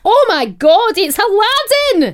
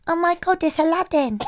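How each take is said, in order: First: High, loud mock Scottish exclamation; Scottish accent. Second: Put-on quiet, unconvincing Scottish accent; half-hearted go at a Scottish accent; failed Scottish accent. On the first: Co-host shows how the quote should go, loud Scottish accent. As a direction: belt it out in a hammed-up Scottish accent. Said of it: "That's it, but in a two-year-old's accent". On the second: Host quotes a child at the station, failed Scottish accent. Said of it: "No, that is not Scottish".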